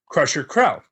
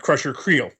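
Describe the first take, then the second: First: The name rhymes with 'Prel', with an 'ell' vowel. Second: The name has a long 'eel' vowel. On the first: The speaker calls it wrong. "I've been pronou- mispronouncing that my entire life" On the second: The speaker calls it right. "which is how it should be pronounced looking at it"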